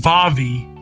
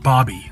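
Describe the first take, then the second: First: The name begins with a V sound. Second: The name begins with a B sound. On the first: "it was Vavi" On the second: "but it's pronounced Bobby, like Barbie"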